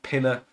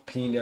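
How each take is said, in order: First: "Pinner" with an English "-er" ending; first pronunciation attempt. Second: "Pina" with a long "ee" first vowel; alternative pronunciation attempt. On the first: Host guessing at a player's name, "Pinner" rhymed with winner. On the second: Host correcting a guess at a player's name, "Pina" with long "ee". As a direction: say "Pina" as PEE-na, tentatively. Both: Shown as a demonstration. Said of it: "I don't know how to pronounce it".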